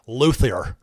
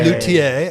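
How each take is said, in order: First: It is said with an American English pronunciation. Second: It is said with a French-style pronunciation. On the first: "but for us Americans" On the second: "I believe that's closer to the correct pronunciation"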